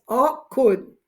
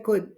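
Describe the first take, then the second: First: Could, said slowly with a clear k and d; pronounced could. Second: Could, with a clear k and d; pronounced could. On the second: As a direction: model the word could. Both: Shown as a demonstration. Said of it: "que se pronuncia could".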